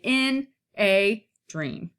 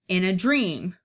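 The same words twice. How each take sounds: First: The stress falls before the last word. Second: The stress falls on the last word. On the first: The speaker calls it wrong. "we wouldn't say in a dream" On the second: The speaker calls it right. "unstressed, unstressed, stressed"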